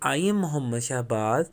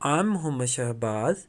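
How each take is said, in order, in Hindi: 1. 'I am' दो पूरे शब्दों की तरह बोला जाता है। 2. 'I am' एक ही सिलेबल में सिकुड़कर बोला जाता है।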